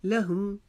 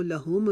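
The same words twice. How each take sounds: First: लहुम with short "hu", closing on m; careful model reading of लहुम, both vowels short; correct short vowels. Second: लहुम with a stretched "hoo" and released m; wrong-way demo, लहुम as "la-hoom-uh"; mispronounced ending. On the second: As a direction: lengthen the second vowel of लहुम. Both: Shown as a demonstration. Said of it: "इसको लहुम नहीं पढ़ेंगे".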